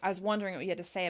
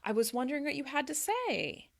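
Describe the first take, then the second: First: The pitch drops, sounding authoritative. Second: The pitch stays high, sounding inviting. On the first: The speaker sounds demanding and not open. The speaker calls it wrong. "it doesn't sound very friendly... that kind of authoritative" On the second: The listener is invited to respond. The speaker calls it right. "that higher intonation throughout the sentence gives the other person a chance to respond"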